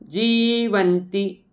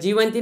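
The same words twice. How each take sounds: First: The first vowel is long. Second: The first vowel is short. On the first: The speaker calls it right. "लांबवून म्हणा" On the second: The speaker calls it wrong. "न म्हणता"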